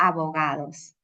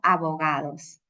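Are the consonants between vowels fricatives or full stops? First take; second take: fricatives; fricatives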